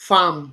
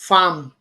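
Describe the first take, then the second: No difference in how they are said.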